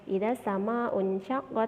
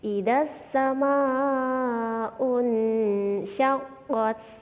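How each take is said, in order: First: The nasal runs straight into 'sy' without lingering. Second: The nasal before 'sy' is blurred and held longer. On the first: The speaker calls it wrong. "nggak boleh idza sama unsyaqqat, nggak bisa langsung begitu" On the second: The speaker calls it right. "bacanya di bagian unsya itu agak lama, samarnya agak lama"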